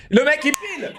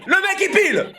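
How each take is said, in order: First: Said in the usual way. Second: Laughing, high. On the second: Real, not acted. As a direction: repeat it much higher while laughing. Repeats laughing.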